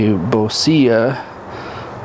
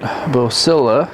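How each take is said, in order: First: The name is said with Spanish pronunciation. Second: The name is said with English pronunciation. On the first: "like a Spanish name" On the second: "gringos might call it"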